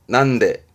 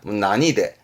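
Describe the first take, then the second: First: It is said as two syllables, nan-de. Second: It is said as three syllables, na-ni-de. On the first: It asks why. "왼쪽에 난데는 왜 어째서 라는 의미입니다" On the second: It asks by what means. "무엇으로는 난이대"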